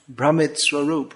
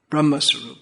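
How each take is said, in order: First: The first word ends with an 'it' sound. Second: The first word ends with an 'a' sound. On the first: The speaker calls it wrong. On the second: The speaker calls it right.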